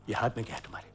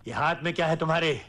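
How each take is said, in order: First: Low, soft suspicion; wary murmur. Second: Fast, full-voiced question; suspicious demand. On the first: Acted. Father noticing something in son's hand, wary and hushed. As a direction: ask it under your breath. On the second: Father questioning what his son holds, quick sharp demand. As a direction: repeat it aloud and press for an answer.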